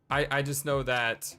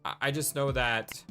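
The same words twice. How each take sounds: The two takes are said the same way.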